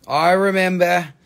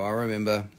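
First: Mock pained. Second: Said in the usual way. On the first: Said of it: "No, I'm just kidding".

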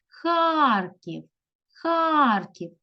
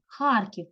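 First: Харків called higher, with a long а; stress on А. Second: Said in the usual way. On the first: Shown as a demonstration. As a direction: call out Харків, stretching Хар. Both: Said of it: "на А".

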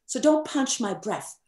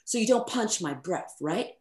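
First: "don't punch my breath" said higher, firmly stressed on "don't"; a lightly British studio boss stressing "don't". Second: Said in the usual way. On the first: Retold or imitated. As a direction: insist on "don't" like a patient engineer. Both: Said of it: "I'll try to do the accent".

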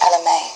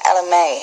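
First: Lightly attempted British accent; modest, regal-leaning British accent. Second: Said in the usual way. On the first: Shown as a demonstration. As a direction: try the name in a British accent. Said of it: "a really good name for a British accent". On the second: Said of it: "in a Brit".

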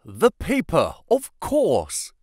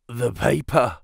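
First: High-pitched cry of sudden realization; excited yell. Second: Weakly croaked words, understated; a slight croak from a man just revived. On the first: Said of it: "yelled Holmes, in a paroxysm of excitement". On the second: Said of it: "croaked a voice behind us". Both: A narrator's reading.

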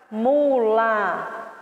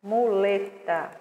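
First: Said in the usual way. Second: "Muleta" dito como "moleta", com o primeiro u soando como o fechado; pronounced moleta. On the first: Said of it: "Se escreve com mu". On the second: Shown as a demonstration. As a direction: fala "Muleta" com som de o: mo-le-ta. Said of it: "mas se pronuncia moleta". ("Muleta" pronunciado "moleta", como se fala)

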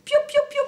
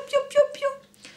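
First: Much higher tiny chick cheeping; chick peeps. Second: Much higher, slow tiny cheeping; slow chick peeps. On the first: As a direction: peep like baby chicks. (piaillement de poussin très aigu) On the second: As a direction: draw out each little peep slowly. (piaillement aigu et lent) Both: Acted. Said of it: "Qui faisaient les petits poussins".

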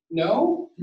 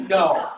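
First: Long pause, then a doubtful rising "No?"; a beat of silence, then "No?" unsure; hesitant no after pause. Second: "No." shot back at once, falling; a quick, firm "No."; instant flat no. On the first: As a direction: hesitate before "No?" and let it rise. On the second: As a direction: answer "No." with no pause. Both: Shown as a demonstration. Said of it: "that's a big difference there".

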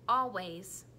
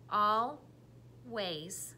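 First: Said in the usual way. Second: Always said slowly, al and ways apart; chopped into syllables. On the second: Shown as a demonstration. Teacher chopping the word into syllables. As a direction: chop always into its beats. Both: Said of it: "tell me the parts or the syllables".

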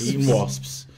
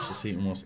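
First: Loud, appalled repeat of the words; horrified shout of disbelief; disgusted exclamation. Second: Said in the usual way. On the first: Real, not acted. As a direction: blurt it out in disbelief. Reacting to eating wasps.

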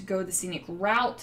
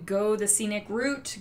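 First: "Route" said to rhyme with out; route as "rout". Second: "Route" said to rhyme with boot; route as "root". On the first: Crafter offering the other pronunciation, "Route" said like "rout". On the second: Crafter naming her stickers, "Route" pronounced like "root". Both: Shown as a demonstration. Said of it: "however you want to say it".

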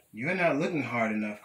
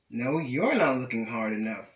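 First: Said in the usual way. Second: "you're" punched out as a retort; stress on YOU'RE. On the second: A narrator's reading. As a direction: throw it back, leaning hard on "you're". Throws the same accusation back.

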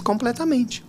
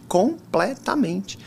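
First: Said in the usual way. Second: COMPLETAMENTE very slow, syllable by syllable; emphatic COMPLETAMENTE. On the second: Real, not acted. Speaker lamenting a lost connection, COMPLETAMENTE slowly drawn out. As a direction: stretch out each part of COMPLETAMENTE.

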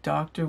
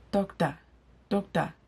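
First: Said in the usual way. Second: Higher-pitched Igbo-accented "doctor", ending like "dok-tah"; Nigerian Pidgin accent. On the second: Shown as a demonstration. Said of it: "saying it with the right accent".

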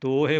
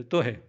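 First: ਤੋਹੇ with a stretched long o; a full long o in ਤੋਹੇ; long-vowel ਤੋਹੇ. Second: ਤੋਹਿ with a brief first vowel; ਤੋਹਿ said quickly, no long o; short-vowel ਤੋਹਿ. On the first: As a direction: draw out the first syllable of ਤੋਹੇ. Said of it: "ਜੇ ਹੋੜਾ ਲਾਵਾਂਗੇ". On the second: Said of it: "ਹੋੜਾ ਨਹੀਂ ਲਾਉਣਾ". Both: Shown as a demonstration.

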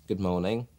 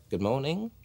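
First: Said in the usual way. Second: Slightly higher, put-on phone greeting; a bit of something. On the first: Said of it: "which is how I started off". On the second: Shown as a demonstration. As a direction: add a little performed polish. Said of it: "just give it a, a little bit of something".

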